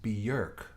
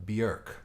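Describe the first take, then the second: Both takes have the same delivery.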